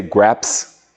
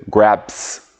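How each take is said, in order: First: "graps" ending in a buzzing Z sound. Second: "graps" ending in a hissed S sound. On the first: Teacher showing the right way, "graps" ending in Z. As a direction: say "graps" with a voiced Z at the end. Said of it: "so you want to say". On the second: Teacher showing the wrong way, "graps" ending in S. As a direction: say "graps" with a plain voiceless S at the end. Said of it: "some people might, will say". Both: Shown as a demonstration.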